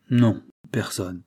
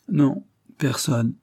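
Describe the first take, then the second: First: Said in the usual way. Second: Slow, higher, resolute refusal. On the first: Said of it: "chercha et déclara". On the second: A narrator's reading. Priest refuses after long thought, resolute. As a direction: pronounce it with resolution. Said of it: "puis prononça avec résolution".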